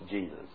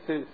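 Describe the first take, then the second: First: The name begins with a J sound. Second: The name begins with an H sound. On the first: "But what was Yeshua is now Jesus" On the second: "in Spanish it's Jesus. But they take the J because in Spanish the J is H sound"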